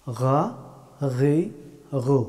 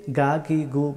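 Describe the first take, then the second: First: "গা, গি, গু" as throaty gha, ghi, ghu; upper-throat friction on "গা, গি, গু", no hard g; correct Arabic ghayn. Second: "গা, গি, গু" with a plain hard g stop; no throat friction in "গা, গি, গু"; mistaken hard g. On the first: Teacher correcting learners' hard g, throaty ghayn. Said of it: "এইভাবে বলতে হবে". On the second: Teacher showing what many wrongly say, ghayn as hard g. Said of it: "এটা শুদ্ধ হবে না". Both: Shown as a demonstration.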